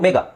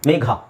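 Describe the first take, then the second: First: The final consonant has no breathy puff. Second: The final consonant has a breathy puff. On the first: The speaker calls it wrong. "ಏನು ಹೇಳ್ತೀವಿ ನಾವು?" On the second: The speaker calls it right. "ಈ ಥರ ಹೇಳ್ತೀರಾ ಸರಿಯಾಗಿ?"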